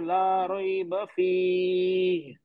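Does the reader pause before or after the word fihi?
after. The pause comes after fihi, not before it. "अब मैं सेकंड में रुक गया, फर्स्ट पे नहीं रुका।"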